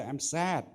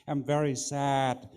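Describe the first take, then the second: First: Said in the usual way. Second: Slower, leaning into very with a touch of sorrow; acted sadness. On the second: Shown as a demonstration. Judge coaching a young speaker, demoing a slower touch of sadness. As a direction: say it as if you really feel sad. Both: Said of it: "try to act as if you are sad".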